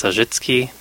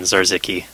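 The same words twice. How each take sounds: First: Zarzicki said the Polish way; Polish pronunciation. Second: Zarzicki said the anglicized Canadian way; Canadian standard pronunciation. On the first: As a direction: say Zarzicki as a native Polish surname. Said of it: "the way Polish people say it". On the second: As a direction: say Zarzicki with plain English sounds, as Canadians do. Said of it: "default Canadian standard pronunciation". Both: Shown as a demonstration.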